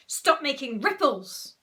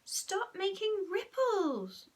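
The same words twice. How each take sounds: First: Put-on loud, bossy boy's voice; slow, loud, raised-pitch command; Horrid Henry. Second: Put-on high, slow, drawn-out child's voice; high-pitched whiny boy; wrong character voice. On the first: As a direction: order it forcefully, drawn out. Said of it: "said Horrid Henry". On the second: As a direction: plead slowly in a high little voice. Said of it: "Sorry, wrong voice again".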